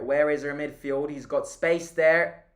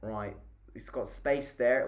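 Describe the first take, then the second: First: Frustrated shout. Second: Said in the usual way. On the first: Real, not acted. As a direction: call it out at the screen in frustration. Frustrated at open player.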